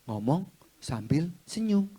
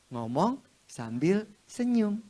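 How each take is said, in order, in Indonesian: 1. Diucapkan datar, tanpa senyum sama sekali. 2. Diucapkan sambil senyum. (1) "Kok gak ada senyumannya? Nggak ada. Lo tadi gini" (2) "Kan smiling voice"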